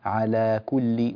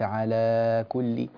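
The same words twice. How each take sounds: First: The long vowel is held for two counts. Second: The long vowel is stretched beyond two counts. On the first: The speaker calls it right. "اضبط الحركتين على كل" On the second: The speaker calls it wrong. "وليس على كل"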